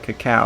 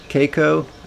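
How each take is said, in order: First: The word is said as 'cacao'. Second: The word is said as 'Keiko'. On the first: The speaker calls it right. "Hopefully I'm pronounced that right" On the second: The speaker calls it wrong. "I used to actually call it, uh, what did I call it? Keiko"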